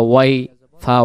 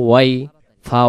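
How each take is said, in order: No difference in how they are said.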